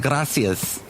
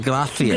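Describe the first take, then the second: First: The middle consonant is a plain s sound. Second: The middle consonant is a lisped th sound. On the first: This is not how people in Spain say it. "They don't say gracias" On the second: This is how people in Spain say it. "They say gracias"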